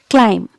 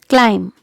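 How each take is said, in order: The two takes are said the same way.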